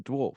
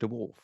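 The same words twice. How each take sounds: First: The word is said with one syllable. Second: The word is said with an added syllable. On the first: The speaker calls it right. "It's a dwarf" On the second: The speaker calls it wrong. "you've been saying dwarf"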